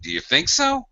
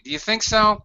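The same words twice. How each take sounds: First: It sounds disbelieving and astonished. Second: It sounds hesitant and unsure. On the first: The speaker thinks the idea is absurd. "If you're being incredulous, are you crazy?" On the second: The speaker has not made up their mind. "the one I said where you're perhaps undecided"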